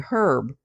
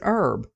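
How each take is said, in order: First: The word starts with an audible H sound. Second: The word starts with no H sound. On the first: "pronouncing the H" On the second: "not pronouncing the H"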